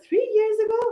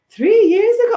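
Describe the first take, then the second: First: Much higher, squeaked-out echo of disbelief; squeaky disbelief. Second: Loud, much higher incredulous cry; shocked disbelief. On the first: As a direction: squeak it back, stunned. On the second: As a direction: shout it back in total disbelief. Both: Retold or imitated. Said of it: "I was like".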